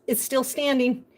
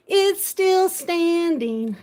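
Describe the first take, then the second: First: Said in the usual way. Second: Slow, louder, delighted; drawn-out happy repeat; excited. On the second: Shown as a demonstration. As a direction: stretch it out in joy.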